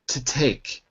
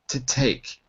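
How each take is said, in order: Both takes have the same delivery.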